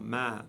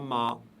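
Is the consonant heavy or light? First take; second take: light; heavy. First: The consonant is light and thin. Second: The consonant is heavy and deep. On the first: The speaker calls it right. "prononcé légèrement" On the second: The speaker calls it wrong. "et non pas ma"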